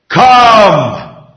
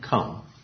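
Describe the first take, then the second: First: The word is said loudly, like thunder. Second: The word is said softly, at normal volume. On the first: An overwhelming invitation that cannot be ignored. The speaker calls it right. "So here is a thunderous" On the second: A plain, ordinary invitation. The speaker calls it wrong. "It's not quiet. It's not even normal in speech"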